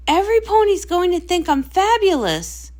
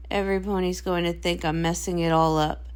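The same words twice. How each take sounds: First: Sure everyone will adore her; proud and thrilled; excited boast. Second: Worried and glum; anxious dread. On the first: Star boasts before show. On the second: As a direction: lower and softer, deflated. Sister dreads failing. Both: Acted.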